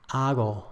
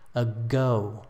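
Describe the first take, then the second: First: The g lets air flow through, not fully closed. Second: The g fully closes off the airflow. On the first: "So Spanish"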